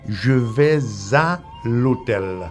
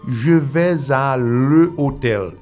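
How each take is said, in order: First: The article is elided into the noun. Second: The article is a full separate syllable. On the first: The speaker calls it right. "Tengo que decir" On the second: The speaker calls it wrong. "yo no puedo decir"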